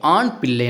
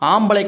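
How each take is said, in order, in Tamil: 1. இது இரண்டு முழுமையான சொற்களாகச் சொல்லப்படுகிறது. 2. இது ஒரே குறைக்கப்பட்ட சொல்லாகச் சொல்லப்படுகிறது.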